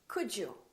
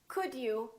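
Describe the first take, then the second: First: The d and y blend into a j sound. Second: The d and y sounds stay separate.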